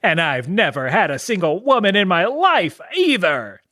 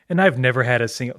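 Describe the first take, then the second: First: It is said in an imitation of Krillin's voice. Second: It is said in the speaker's normal voice.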